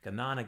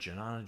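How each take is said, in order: First: The word begins with a hard G sound. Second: The word begins with a J sound.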